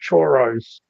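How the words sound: The word is said in a broad Australian accent. "like a true Aussie or whatever"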